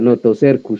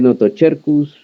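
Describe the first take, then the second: First: The middle consonant is said as an s sound. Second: The middle consonant is said as a ch sound. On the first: It follows Spanish-style pronunciation of Latin. "el español latinizado, mal dicho, muy mal dicho, pero que me gusta más a mí" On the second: It follows ecclesiastical Latin pronunciation. "porque es latín, el latín clásico que él conoce es el eclesiástico"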